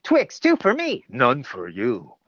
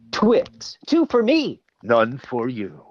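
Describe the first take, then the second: First: Playful ad tease; Twix ad voice again. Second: Twix ad voice. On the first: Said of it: "she heard". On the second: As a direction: tease like a candy ad. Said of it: "I did this commercial and it was". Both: Retold or imitated.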